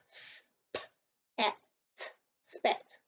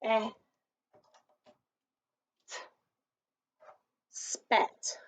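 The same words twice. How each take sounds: First: Sounds split S-p-at, then blended spat; sounding out words. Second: S-p-at sounded slowly, then spat; sounding out words. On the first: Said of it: "They go". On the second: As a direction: pull each sound, then blend spat. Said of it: "pull them down while you say it". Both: Shown as a demonstration.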